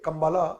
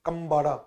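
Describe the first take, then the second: First: The third consonant is an L sound. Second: The third consonant is a D-like sound. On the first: "its spelling is K M B A L A" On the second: "it is pronounced as Kambada"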